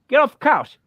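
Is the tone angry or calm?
angry. It is said angrily, in a loud voice. A hot temper that shows one is Italian. "but you're like"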